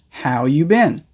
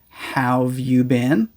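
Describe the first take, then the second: First: The word 'have' is left out entirely. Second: The word 'have' is shortened onto 'how'. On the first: "or just how you been" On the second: "most people usually pronounce as either how've you been"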